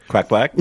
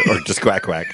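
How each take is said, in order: First: Loud, rising quack quack; loud quacking question. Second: Said in the usual way. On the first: Shown as a demonstration. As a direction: belt it out as a question.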